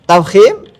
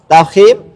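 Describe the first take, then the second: Both takes have the same delivery.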